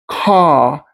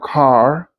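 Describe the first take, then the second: First: The final R sound is silent. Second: The final R sound is pronounced.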